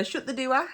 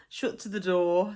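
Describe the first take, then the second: First: DOOR as two syllables, "doo-ah", pitched up. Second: Said in the usual way. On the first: Shown as a demonstration. Teacher repeats the local phrase, DOOR said "doo-ah". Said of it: "put extra syllables in words". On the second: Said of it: "So door would be doer".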